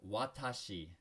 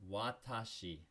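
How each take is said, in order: Both takes have the same delivery.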